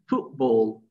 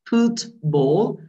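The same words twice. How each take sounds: First: The middle consonant sounds like a p. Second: The middle consonant is a clear t sound. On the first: "you say, what do you say? Football" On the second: "instead of pronouncing foot, foot, football"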